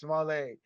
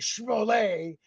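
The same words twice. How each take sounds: First: The name is said in a plain American accent. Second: The name is said in a put-on French accent.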